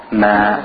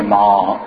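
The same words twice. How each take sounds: First: MA with a spread front vowel, as in "man"; thin MA. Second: MA with a rounded back AW vowel; thick, wrong MA. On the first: Teacher showing the light letter, thin smiling ma. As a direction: smile and keep ma thin. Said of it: "we make them thin". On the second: Teacher showing how not to say it, thick rounded ma. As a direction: say ma heavy, like "maw". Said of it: "we don't say ma". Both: Shown as a demonstration.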